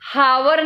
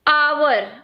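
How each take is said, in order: First: The word begins with an audible h sound. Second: The word begins with a vowel, no h sound. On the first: The speaker calls it wrong. "हम हावर नहीं बोल रहे" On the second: The speaker calls it right. "H silent होता है"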